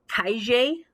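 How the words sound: The double-L sounds like sh.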